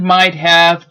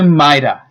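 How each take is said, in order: First: Both words are said fully and separately. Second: The words blend into one reduced word.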